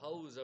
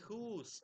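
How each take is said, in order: First: The vowel sounds like 'ow'. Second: The vowel sounds like 'oo'. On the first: This is the modern pronunciation. "இப்ப நம்ம ஹவுஸ்ன்னு pronounce பண்றது" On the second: This is the older pronunciation. "முன்னாடி ஹூஸ் அப்படின்னு pronounce பண்ணியிருந்திருப்பாங்க"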